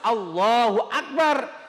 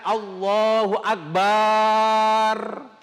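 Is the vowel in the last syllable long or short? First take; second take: short; long. First: The vowel in the last syllable is short. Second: The vowel in the last syllable is long. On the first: God is the greatest. The speaker calls it right. "harus Allahu Akbar" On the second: God is a big drum. The speaker calls it wrong. "jangan Allahu Akbar"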